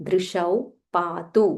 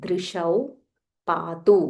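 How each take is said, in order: Both takes have the same delivery.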